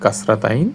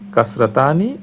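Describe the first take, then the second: First: The word ends with the syllable 'tain'. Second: The word ends with the syllables 'ta-ni'. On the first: This is the common Bengali form. "বাংলায় প্রচলিত" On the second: This is the Arabic form. "আরবিতে একে বলা হয়"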